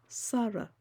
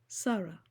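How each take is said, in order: The two takes are said the same way.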